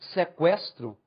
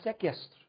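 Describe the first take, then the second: First: The u after the q is sounded. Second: The u after the q is silent. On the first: The speaker calls it right. "tendo trema ou não, você saberia o que é" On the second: The speaker calls it wrong. "Ninguém fala sequestro"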